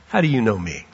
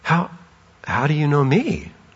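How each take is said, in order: First: It is said scornfully and doubtingly. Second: It is said with gasping amazement.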